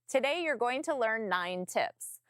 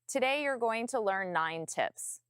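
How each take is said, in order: First: It is said with a smile, higher in tone. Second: It is said without a smile, lower in tone. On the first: The speaker calls it right. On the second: The speaker calls it wrong.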